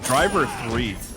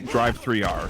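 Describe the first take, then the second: First: It is said as the plain words 'driver three'. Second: It is said as 'drive', 'three', then the letter R. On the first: The speaker calls it wrong. "can you say it properly, please?" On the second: The speaker calls it right. "Oh, excuse me, Drive three R"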